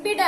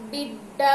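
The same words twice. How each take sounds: First: బిడ with a short, single, unstressed డ; said without vattu. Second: బిడ్డ with a held, doubled డ్డ; said with vattu. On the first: Teacher showing children the word without vattu, single-consonant బిడ. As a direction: say బిడ lightly, no doubled consonant. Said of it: "ఒత్తు లేకుండా రాసినప్పుడు ఏమంటాము". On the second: Teacher showing children the word with vattu, stressed double బిడ్డ. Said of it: "డా ఒత్తి ఇచ్చిన తర్వాత ఎలా పలుకుతున్నాము". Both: Shown as a demonstration.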